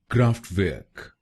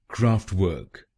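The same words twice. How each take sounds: First: It is said with a German accent. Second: It is said with a British accent.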